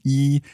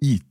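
First: The syllable has a high level tone. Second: The syllable has a falling tone. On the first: The number one stands alone. "when it's a first tone on its own, would be yi" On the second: The number one is combined with thousand. "so it becomes a fourth tone"

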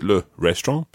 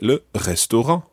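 First: It is said with an English accent. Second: It is said with a French accent. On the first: The speaker calls it wrong. "Don't just say it in English. ... So you don't say le restaurant" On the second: The speaker calls it right. "Make sure you put on a French accent. ... You say le restaurant"

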